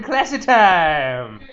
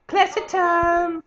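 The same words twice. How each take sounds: First: Louder, very slow "classy time"; hammed-up posh announcement; mock classy. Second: High, slow, put-on posh "Classy time"; hammed-up high posh voice; mock posh voice. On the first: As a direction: draw it out like a fancy host. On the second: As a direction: croon it like a snooty aristocrat.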